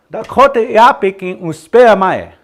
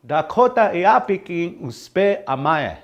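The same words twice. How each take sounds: First: Loud, high, brisk Dakota phrase; high model phrase. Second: Slowed down, easing off in volume; slow model phrase. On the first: Teacher models the phrase for learners, high and loud. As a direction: call the whole phrase out high and strong. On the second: Teacher repeats the phrase for learners, slow and measured. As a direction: take "Dakota Iapikin uspe amae" slowly, each word separate. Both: Shown as a demonstration.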